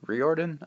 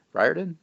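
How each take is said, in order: First: Riordan said as REE-or-dan, questioning; REE-or-dan, second uncertain try; second guess pronunciation. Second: Riordan said as RYE-or-dan, questioning rise; RYE-or-dan, asked uncertainly; unsure pronunciation. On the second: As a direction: try "Riordan" as RYE-or-dan, first syllable like rye. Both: Shown as a demonstration. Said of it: "I don't know how to pronounce his name".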